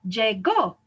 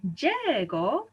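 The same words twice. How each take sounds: First: "Llegó" stressed on a punched final GÓ; lle-GÓ, hitting the end of "Llegó"; stress on last syllable. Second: "llegó" wrongly stressed as LLE-go; drawn-out first syllable in "llegó"; stress moved to first syllable. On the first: Teacher gives the past tense, "Llegó" stressed on the last syllable. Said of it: "ends in a vowel". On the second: Teacher shows what the rule would give, "llegó" stressed on the first syllable. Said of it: "We should say". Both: Shown as a demonstration.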